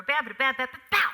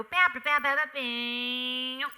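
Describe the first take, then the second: First: Loud punched syllables, short final hit; rhythmic door slam. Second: Loud punched syllables, final note held long; drawn-out rhythmic finish. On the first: Actress showing how she closed the door, punchy scatted rhythm. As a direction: scat it sharply, landing hard on bow. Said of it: "with George, I might have closed". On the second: Actress showing her own version, scatted rhythm with long held ending. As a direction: scat it and stretch the bow way out. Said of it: "But mine might go". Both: Shown as a demonstration.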